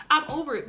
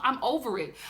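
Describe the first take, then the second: First: "I'm over it" louder, stress on I'm; emphatic repeat. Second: Said in the usual way. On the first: Real, not acted. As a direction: hit "I'm" hard the second time.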